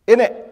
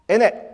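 First: The t sounds are dropped and the words run together. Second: The t sounds are dropped and the words run together.

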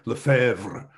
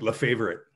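First: The name is said with a French pronunciation. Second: The name is said with an English pronunciation. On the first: This is how French speakers say it. "The French might say it with a little bit more pizzazz, a little more sauce on it" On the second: This is how the family says it. "we just say"

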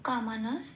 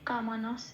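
Both takes have the same delivery.

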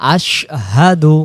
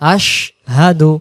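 Both takes have the same delivery.

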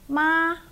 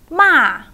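First: The pitch stays high and level throughout. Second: The pitch falls sharply from high to low. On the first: "So the high flat tone" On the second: "And the falling one"

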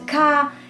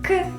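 First: It is said as the full alphabet name. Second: It is said as a short bare sound. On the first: The speaker calls it wrong. "używamy nazw liter tak, jak się je wymawia w alfabecie" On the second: The speaker calls it right. "Nazywajmy głoski krótko, tak jak się po prostu je wymawia"

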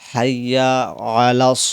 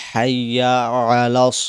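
Both takes have the same delivery.

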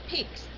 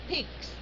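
The two takes are said the same way.

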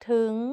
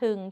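First: The syllable is said on a rising tone. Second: The syllable is said on a low tone. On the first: "จัตวาสุดท้ายนิ้วก้อย" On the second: "เอก"

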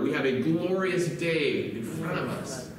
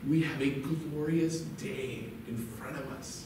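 First: The sentence is said at a louder volume. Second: The sentence is said at a normal, quieter volume.

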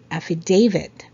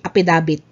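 First: The word is said with 'f' and 'v' sounds. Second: The word is said with 'p' and 'b' sounds. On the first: The speaker calls it right. "Number 16 is affidavit" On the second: The speaker calls it wrong. "So it's not apidabit"

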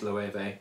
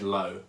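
First: The name sounds different from the word 'low'. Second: The name sounds just like the word 'low'. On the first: The speaker calls it right. "but I think it's Loewe" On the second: The speaker calls it wrong. "it looks like it says low"

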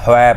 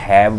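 First: The word sounds like 'hoi' with a short o. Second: The word sounds like 'haiv' with an ai vowel. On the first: The speaker calls it right. "ਹੁਣ ਇਹਦੇ ਵਿੱਚ ਹੋਇ ਪਾਠ ਕਰਨਾ" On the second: The speaker calls it wrong. "ਕਈਆਂ ਨੇ ਹੈਵ ਬੋਲਿਆ"

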